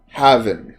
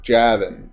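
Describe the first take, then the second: First: The name starts with an H sound. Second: The name starts with a J sound.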